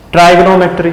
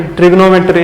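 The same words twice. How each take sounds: First: ट्राइगोनोमेट्री with first syllable as "trai"; "trai" variant. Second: ट्रिग्नोमेट्री starting with short "trig"; short "trig" variant. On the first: Teacher shows students what some people say, "trai" variant of ट्राइगोनोमेट्री. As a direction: say ट्राइगोनोमेट्री with a long "eye" vowel up front. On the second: Teacher contrasts two sayings for students, short "trig" in ट्रिग्नोमेट्री. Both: Shown as a demonstration. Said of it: "इसको कुछ लोग ट्राइगोनोमेट्री भी कहते हैं".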